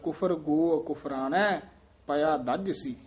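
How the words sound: The pause comes right after 'kufrana'. The phrasing follows the rhythm of the verse. "ਪਰ ਚਾਲ ਨਾਲ ਇੱਥੇ ਠੀਕ ਹੈ"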